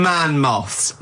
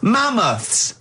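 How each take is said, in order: First: "man moths" said as two words, man plus moths; "man moths" like a man-sized moth. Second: "Mammoths" said as one word, stress on MAM; "Mammoths" said right, as one word; correct pronunciation. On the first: Retold or imitated. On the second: Shown as a demonstration.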